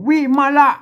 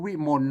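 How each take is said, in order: First: The word is said in three syllables. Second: The word is said in two syllables. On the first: This is the old Pali-style reading. "สมัยนั้นมันต้องอ่านเป็นแบบบาลีนะครับ" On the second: This is the modern reading. "เดี๋ยวมันเป็นวิมลไปนะครับ"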